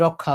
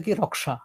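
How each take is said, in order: First: রক্ষা said the Bengali way, rok-kha with a doubled kh; রক্ষা with a long held kh, no sh sound; Bengali rokkha. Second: রক্ষা split Hindi-style into k plus sh, raksha; রক্ষা with a clear k then sh, not kh. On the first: Teacher shows students the Bengali way: রক্ষা as rokkha. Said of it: "আমরা বলি". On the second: Teacher contrasts the Hindi way for students: রক্ষা as raksha. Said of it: "ওরা বলবে যে". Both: Shown as a demonstration.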